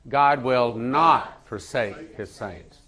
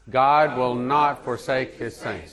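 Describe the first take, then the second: First: The word not is stressed. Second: No special stress falls on not.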